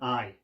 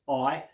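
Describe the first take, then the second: First: The vowel is in a non-Cockney accent. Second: The vowel is in a Cockney accent. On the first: "rather than I" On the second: "The Cockney accent's I"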